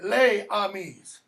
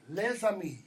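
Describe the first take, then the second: First: The s is kept apart from the next word. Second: The s runs straight into the next word. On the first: The speaker calls it wrong. "It's not les amis or les amis" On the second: The speaker calls it right. "when you have an S that comes before a word that begins with a vowel, that gets elided"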